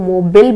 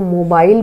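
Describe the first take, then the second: First: The last syllable has a short i sound. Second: The last syllable has a long ai sound. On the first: This is the American pronunciation. "American English देखेंगे तो इसको मोबिल बोला जाता है" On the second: This is the usual British pronunciation. "हम normally बोलते हैं"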